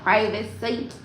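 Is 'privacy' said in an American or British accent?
American. It is said in an American accent.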